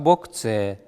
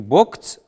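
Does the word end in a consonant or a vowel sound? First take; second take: vowel; consonant. First: The word ends in a vowel sound. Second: The word ends in a consonant sound. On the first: The speaker calls it right. "а бокце" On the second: The speaker calls it wrong. "может быть не бокц"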